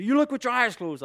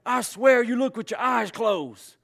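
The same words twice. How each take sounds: First: Higher, louder teasing scold; mock exasperated dad. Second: Higher, louder, slow scolding; exasperated stepdad. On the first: Father teasing his daughter with the stepdad's line, mock scold. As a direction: echo the old line at your kid. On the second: Retold or imitated. Stepdad scolding his son over the tool, slow exasperated scolding. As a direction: scold the kid in disbelief. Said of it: "get so fighting mad".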